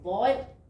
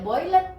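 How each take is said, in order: First: The ending is clipped short with no extra syllable. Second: The ending is pronounced as a separate extra syllable. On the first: The speaker calls it right. "jadi boil ada rem" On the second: The speaker calls it wrong. "nggak boleh boilet ya"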